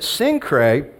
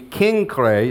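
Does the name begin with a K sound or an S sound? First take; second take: S sound; K sound. First: The name begins with a soft S sound. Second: The name begins with a hard K sound.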